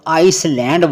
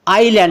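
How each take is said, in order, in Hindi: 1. l से पहले s की आवाज़ सुनाई देती है। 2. l से पहले s की कोई आवाज़ सुनाई नहीं देती। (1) "इसको बहुत से लोग आइसलैंड बोलते हैं। ... इसको आइसलैंड बोलोगे तो प्रोनाउंसिएशन गलत है" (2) "आईलैंड इसको बोलते हैं।"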